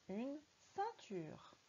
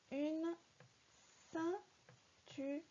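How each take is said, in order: First: Said in the usual way. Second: High, very slow, hesitant sounding out; searching reader. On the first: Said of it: "on le lit normalement". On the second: Shown as a demonstration. Teacher imitating a child deciphering the word. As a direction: read ceinture like a child still searching. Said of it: "c'est quand tu cherches".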